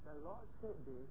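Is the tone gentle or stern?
gentle. The voice is gentle, soft and mild. The message is shared as something everyone should heed together. "Same prophecy, two tones"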